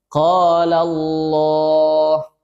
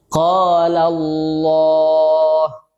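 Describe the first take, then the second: The two takes are said the same way.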